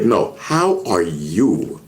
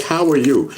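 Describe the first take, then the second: First: Slow, lower "how are you", each word weighted; pointed re-asking. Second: Said in the usual way. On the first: Retold or imitated. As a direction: press "how are you" slowly as a sincere question. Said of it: "He's like". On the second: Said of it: "he's like".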